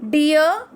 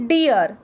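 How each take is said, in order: First: "Dear" lifted up at the end like a question; rising dear. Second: "dear" dropping to a firm close; falling dear. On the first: Teacher to class, modelling "Dear" with a rising tune. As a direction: say "Dear" with a rise. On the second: Teacher to class, repeating "dear" with a falling tune. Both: Shown as a demonstration. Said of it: "D E A R".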